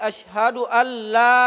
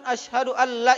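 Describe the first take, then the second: First: The vowel in 'la' is held long. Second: The vowel in 'la' is cut short. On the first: The speaker calls it right. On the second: The speaker calls it wrong.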